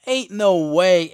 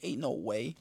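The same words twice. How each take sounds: First: Louder, slow "Ain't no way"; second "Ain't no way" burst out slowly in protest; disbelieving shout. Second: Softer, stunned "Ain't no way"; stunned murmur. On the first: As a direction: drag out "Ain't no way" loudly. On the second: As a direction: breathe out "Ain't no way" quietly. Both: Retold or imitated. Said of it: "I was like".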